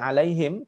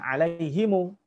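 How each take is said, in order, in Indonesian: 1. Kata ini berakhir dengan bunyi m tertutup. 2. Bunyi m di akhir diikuti vokal u. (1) "pada riwayat Hafiz dibaca alaihim" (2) "riwayat Warash, itu dibacanya alaihimu"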